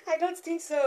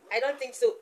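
First: High-pitched wail breaking into laughter; laughing mock despair. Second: Said in the usual way. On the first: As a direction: whine it, then laugh.

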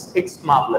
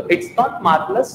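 First: "marvelous" as "MAAV-lus"; R-less pronunciation. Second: "marvelous" with the R sounded; wrong pronunciation. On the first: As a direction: drop the R in "marvelous", long aa. ("marvelous" को "मावलस", बिना र के) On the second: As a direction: say "marvelous" with an audible R. ("marvelous" में र साफ़ बोलकर) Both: Shown as a demonstration. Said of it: "थोड़ा सा pronunciation का matter करता है".

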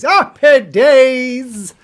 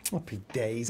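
First: Loud, drawn-out happy days; big cheer. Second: Low, soft happy days; muted remark. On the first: Pretend. Cheering the news to viewers, loud and drawn out. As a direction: belt it out slowly, stretching each word. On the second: Real, not acted. Reading the chat to themselves, low and muted. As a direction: say it under the breath, low. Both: Same words, muted then exclaimed.

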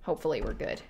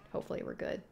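First: Said in the usual way. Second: Hopefully we're good repeated as a soft unvoiced whisper. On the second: Real, not acted. Nervous player repeating a hope, whispered. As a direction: whisper it to yourself.

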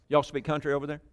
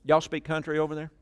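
The two takes are said the same way.

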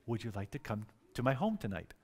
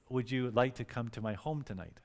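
First: Hushed imitation of a shy asker; soft, lowered, timid invitation; way softer. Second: Softly voiced shy invitation; imitating a quiet, shy man. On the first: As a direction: barely venture the question, very softly. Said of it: "he said it way softer than that". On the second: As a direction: ask it gently, well under normal volume. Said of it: "very quietly".

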